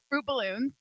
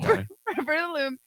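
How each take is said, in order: First: The phrase is said fast and run together. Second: The phrase is said slowly with every word clear.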